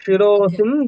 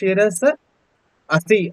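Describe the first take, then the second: First: The two words are merged into one form. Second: The two words are said separately, unmerged. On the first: "சேர்த்து சொல்லும் போது அந்த இடத்துல ஒரு சந்தி வந்துடும்" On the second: "பிரிச்சு சொல்றோம் அப்படிங்கறதுனால ஷிரச அசி அப்படின்னு சொல்றோம்"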